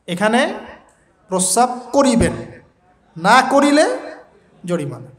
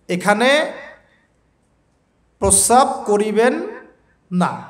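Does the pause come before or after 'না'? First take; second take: before; after. First: The pause comes before 'না'. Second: The pause comes after 'না'.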